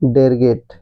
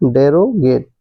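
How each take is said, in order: First: The word is said with the middle syllable dropped. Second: The word is said with a full middle syllable. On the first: The speaker calls it right. "Right pronunciation is डेरगेट" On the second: The speaker calls it wrong. "But it's wrong pronunciation"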